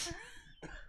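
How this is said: It is yelled in a shrill high pitch.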